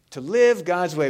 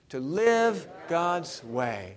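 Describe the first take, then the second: First: Said in the usual way. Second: Very slow, word by word; slow for joining in. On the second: Shown as a demonstration. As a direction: lead the congregation slowly through each word. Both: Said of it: "say those three words with me".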